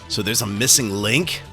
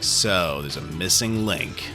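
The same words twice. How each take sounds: First: The voice rises at the end, like a question. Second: The voice falls at the end, like a statement. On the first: It is a surprised question. "the text has a question mark and an exclamation point" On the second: It is a flat statement. "he's just like"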